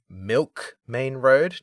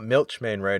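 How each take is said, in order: First: The first word ends with a k sound. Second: The first word ends with a ch sound. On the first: This is the official pronunciation. "have to say this because they said it in the remake" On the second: This is the speaker's own pronunciation. "not Milch Main Road as I would have said"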